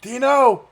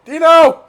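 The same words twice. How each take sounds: First: Very loud, high call across the room. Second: Even higher and louder yell of the name; louder call. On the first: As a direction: yell the name to find him. Calling out for Dino. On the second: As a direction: shout it again, more urgent. Calling out again, louder. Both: Real, not acted.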